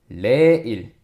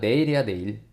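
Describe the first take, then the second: First: The word starts with an R sound. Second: The word starts with an N sound. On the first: This is the North Korean style without the initial-sound rule. "북한식으로만 쌤이 써놨어" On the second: This is the standard form with the initial-sound rule.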